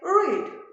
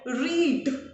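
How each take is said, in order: First: The opening R sound is pushed hard. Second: The final D sound is pushed hard. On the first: "here I just put my whole stress on R, not on D" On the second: "I just put the whole stress at the last syllable"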